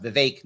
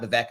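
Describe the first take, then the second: First: Vivek said vih-VAKE, with a long "ay" in the second syllable; correct Vivek. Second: Vivek said vih-VECK, with a short "eh" vowel; wrong Vivek. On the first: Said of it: "His name is pronounced". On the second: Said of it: "not Vivek". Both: Shown as a demonstration.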